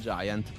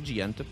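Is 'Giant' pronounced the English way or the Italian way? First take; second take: English; Italian. First: It is said as the English word 'giant'. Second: It is read as an Italian word, like 'jant'. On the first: The name keeps its double meaning with the English word. "Non tradiamo chi ha voluto creare il doppio senso e diciamo Giant" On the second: The name is read as an Italian acronym. "anche il nome è italiano, quindi magari si legge Giant"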